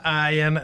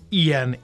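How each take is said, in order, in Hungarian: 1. A név 'ah' hanggal kezdődik. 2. A név 'ee' hanggal kezdődik. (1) "helyes kiejtése nem ájen" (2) "hanem ilyen, igen"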